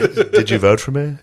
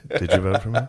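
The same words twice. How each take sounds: First: Mock Trump question through laughter, higher; laughing. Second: Said in the usual way. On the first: Imitating Trump asking the FBI head, laughing. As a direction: ask it while still laughing.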